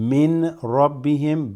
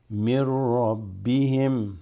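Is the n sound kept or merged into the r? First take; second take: kept; merged. First: The n sound is clearly kept before r. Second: The n sound merges into a doubled r. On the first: The speaker calls it wrong. "not min rabbihim" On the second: The speaker calls it right. "That noon you assimilate here with this ra"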